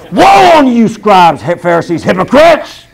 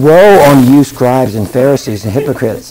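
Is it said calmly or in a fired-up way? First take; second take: fired up; calmly. First: It is said loudly, with fired-up energy. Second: It is said calmly, without much energy.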